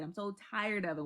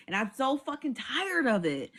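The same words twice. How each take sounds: First: Softer, dropping away in weary defeat; quiet weary repeat. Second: Said in the usual way. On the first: Shown as a demonstration. To viewers, softly sighing that she's tired of holding laughs. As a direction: let it die out, worn down. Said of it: "repeated, fading". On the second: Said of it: "repeated complaint".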